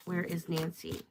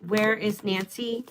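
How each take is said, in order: First: Hushed asking. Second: Said in the usual way. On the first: Real, not acted. Reader asking the cards again, hushed. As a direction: drop to a hush on the repeat.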